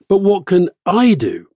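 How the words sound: The stress is on the word I.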